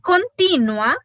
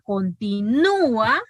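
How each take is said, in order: First: The stress falls on the syllable ti. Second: The stress falls on the syllable nu. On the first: "el acento está ahí, ¿verdad? En la, en la I" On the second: "hay hiato. Y el acento está ahí... en la U"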